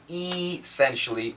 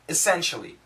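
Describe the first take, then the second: First: The first vowel is said full and clear. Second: The first vowel is reduced to a short schwa. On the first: The speaker calls it wrong. "we don't say essentially" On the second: The speaker calls it right. "We say essentially. ... it's a schwa sound"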